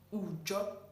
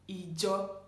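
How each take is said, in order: First: The word begins with an 'oo' vowel. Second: The word begins with an 'ee' vowel. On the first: This is the Ondo dialect form. "But in Ondo, it's being pronounced as Ujo" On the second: This is the standard Yoruba form. "church in Yoruba is um, mm, being pronounced as Ijo"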